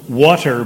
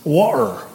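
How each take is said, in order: First: The t in the middle is clearly pronounced. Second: The t in the middle is dropped.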